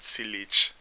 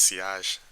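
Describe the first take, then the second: First: The word is pronounced the English way, as spelled. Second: The word is pronounced the French way. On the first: The speaker calls it wrong. "not sillage" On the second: The speaker calls it right. "It's not English, it's French. So it's pronounced sillage"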